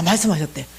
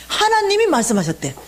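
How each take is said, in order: First: Said in the usual way. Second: 하나님이 said higher and punched as the key word; stress on 하나님이. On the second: Shown as a demonstration. The mother tells the audience who spoke, stressing 하나님이 high. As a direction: lift and hit 하나님이, then let 말씀하셨대 fall.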